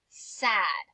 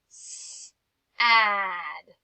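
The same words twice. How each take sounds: First: The word is said at normal speed. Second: The word is stretched out slowly, sound by sound.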